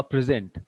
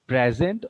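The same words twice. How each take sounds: First: "present" said pri-ZENT, weight on the end; light first syllable, stressed ZENT in "present"; stress on second syllable. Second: "Present" with PRE stressed, as in PREZ-ent; stress on first syllable. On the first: Teacher quizzing students on two forms, second-syllable stress on "present". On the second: Teacher quizzing students on two forms, first-syllable stress on "Present". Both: Shown as a demonstration. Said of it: "pronunciation is different".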